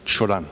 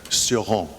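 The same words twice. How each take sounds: First: The name is said with a Romanian pronunciation. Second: The name is said with an English pronunciation.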